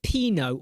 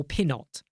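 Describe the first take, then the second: First: "Pinot" as PEE-no; silent-T Pinot. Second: "Pinot" as PIN-ot; sounded-T Pinot. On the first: Streamer asking about "Pinot" said PEE-no, silent T. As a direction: say "Pinot" with long ee and no T. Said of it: "Is it Pinot or Pinot?". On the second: Streamer asking about "Pinot" said PIN-ot, sounded T. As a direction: say "Pinot" with short i and a final T. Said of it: "How do you say it?". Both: Shown as a demonstration.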